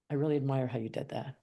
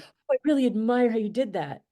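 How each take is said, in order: First: It is said in a neutral, sincere tone. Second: It is said in a patronizing, condescending tone.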